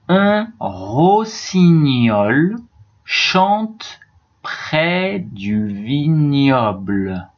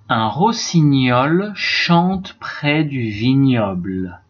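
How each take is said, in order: First: The sentence is spoken at a slower pace. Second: The sentence is spoken at a faster pace.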